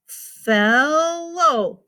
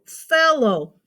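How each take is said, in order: First: FELLOW stretched long, "felll-looow"; split into syllables. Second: Said in the usual way. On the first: Shown as a demonstration. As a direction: draw out each syllable of "fellow". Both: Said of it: "That's two syllables".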